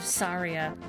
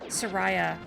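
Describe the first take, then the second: First: The name is said like 'Saria'. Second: The name is said like 'Soraya'. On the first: This is the proper way of saying the name. The speaker calls it right. "instead of Saria" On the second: This is the old, mixed-up way of saying the name. The speaker calls it wrong. "That's that's how I used to say it"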